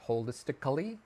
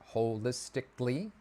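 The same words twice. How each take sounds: First: The word is said with five syllables. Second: The word is said with four syllables. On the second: "that's four"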